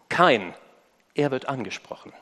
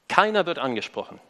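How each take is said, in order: First: The first part splits into two words with a pause. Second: The first part is said as one word. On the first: Cain specifically is being addressed. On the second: Nobody is being addressed.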